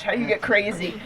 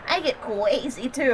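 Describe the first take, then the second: First: Said in the usual way. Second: Soft, slow mock baby talk; imitating a friend's cutesy voice; put-on girly voice. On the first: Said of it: "I'm like". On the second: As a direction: say "crazy" as a lisped "cwazy". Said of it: "trying to give me an example".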